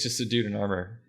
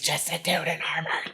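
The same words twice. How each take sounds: First: It is said with only mild sarcasm. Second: It is said with heavy, abrasive sass. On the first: "I feel like I'm not saying it sarcastically enough" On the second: "Put all of the sass you can into that comment"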